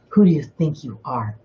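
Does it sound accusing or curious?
curious. It sounds like a sincere, curious question.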